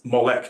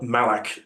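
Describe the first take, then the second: First: The name is said with o and e vowels. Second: The name is said with a and a vowels.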